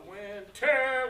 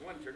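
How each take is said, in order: First: "winter" with a loud, drawn-out second syllable, win-TER; misplaced stress on winter. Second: Said in the usual way. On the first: Shown as a demonstration. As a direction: wrongly punch the end of "winter". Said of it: "We don't want that". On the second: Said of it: "because the word is winter".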